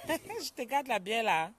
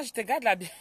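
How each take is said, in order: First: Slow, laughing repeat of the joke; laughing tease. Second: Said in the usual way. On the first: Real, not acted. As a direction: laugh through the tease, stretching it out. Teasing viewer about beer.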